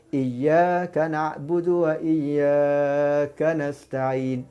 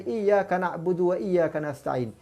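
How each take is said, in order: First: A long vowel is stretched out too long. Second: The long vowels are held at normal length.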